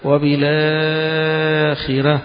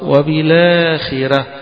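First: The long vowel is held for four counts. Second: The long vowel is held for two counts. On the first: "و4" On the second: "2 حركتين"

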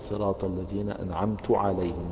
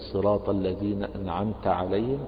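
First: The t in anamt is followed by u. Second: The t in anamt is followed by a. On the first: The favor is attributed to the speaker. The speaker calls it wrong. "ضم التاء فحول الضمير مثلا من ضمير مخاطب إلى ضمير متكلم" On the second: The favor is attributed to the one addressed. The speaker calls it right. "بدلا أن يقول"

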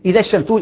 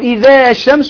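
First: The final long vowel of 'idha' is dropped. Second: The final long vowel of 'idha' is held. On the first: The speaker calls it right. "ما تلزمش الالف" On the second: The speaker calls it wrong. "تمد الالف، لا"

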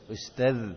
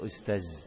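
First: It ends with a 'dh' sound, tongue on teeth. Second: It ends with a buzzing 'z' sound. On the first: The speaker calls it right. "Jadi ustaz dibaca ustaz" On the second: The speaker calls it wrong. "transliterasi ... menulis huruf dzal dengan huruf z"

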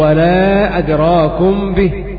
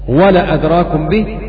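First: The vowel after the L is long. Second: The vowel after the L is short. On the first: The particle is a negation. "إثبات الألف بعد اللام" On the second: The particle is an emphatic affirmation rather than a negation. "حذف الألف"

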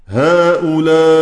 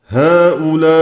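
No difference in how they are said.

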